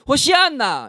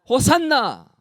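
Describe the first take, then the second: First: The word is said with an extra syllable, shi-anna. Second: The word is said with two middle syllables, sanna. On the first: This is the form in the original language. "원어적으로는 ... 호시안나랍니다 ... 이렇게 외치는 겁니다" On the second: This is the familiar form of the word. "이렇게 호산나가 아니라"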